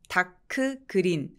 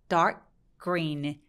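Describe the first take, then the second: First: Each word is said separately, with a vowel after k. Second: The words are linked, the k flowing into green. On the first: The speaker calls it wrong. "다크 그린 아니고" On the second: The speaker calls it right. "연결해서 소리를 내게 되죠"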